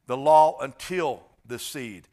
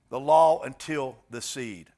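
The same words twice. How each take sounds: First: "until" drawn out slowly and leaned on; slow down and lean on "until" to mark the limit; stress on until. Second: Said in the usual way. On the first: Shown as a demonstration. Pastor stressing "until" to the congregation, slowly. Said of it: "Notice that word, until". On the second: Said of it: "I emphasize that".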